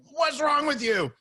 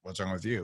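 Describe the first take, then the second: First: Drawn-out, high-pitched indignant question; imitating an incredulous dealer, voice jumping up; affronted outburst. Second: Low, soft, untroubled reply; unbothered comeback. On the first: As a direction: act out a car dealer taken aback. Retold outraged car dealer, calm reply. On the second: Retold or imitated. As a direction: hand the question back without any sting. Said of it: "there's no pain".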